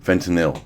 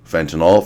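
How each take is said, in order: First: Fentanyl said as "FEN-tuh-nil"; ending in -il. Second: Fentanyl as "FEN-tuh-nawl", rising, loud; ending in -awl. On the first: Streamer testing the word fentanyl, ending it "-nil". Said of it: "is it fentanyl or is it fentanyl". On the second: Streamer testing the word fentanyl, ending it "-nawl". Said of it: "everyone says fentanyl". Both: Shown as a demonstration.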